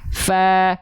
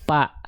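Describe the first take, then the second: First: Teeth touch lip and breath flows through. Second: Both lips close and stop the breath. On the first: The speaker calls it right. "kalau tepat pelafalannya sesuai dengan makhrajnya, maka dia akan mengalirkan hembusan angin atau nafas" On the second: The speaker calls it wrong. "kalau yang disentuhkan bibir atas dan bibir bawah, ya huruf fa-nya salah, nggak akan keluar nafas"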